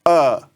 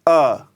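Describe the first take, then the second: First: The vowel is said with relaxed, open lips. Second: The same.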